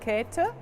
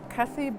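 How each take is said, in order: First: The name is said the German way. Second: The name is said the English way. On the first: "the German pronunciation is Käthe" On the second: "or Kathy Buchler"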